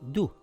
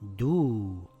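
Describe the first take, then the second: First: The vowel is held for one count. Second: The vowel is held for two counts. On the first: The speaker calls it wrong. "and not du" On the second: The speaker calls it right. "it will read do"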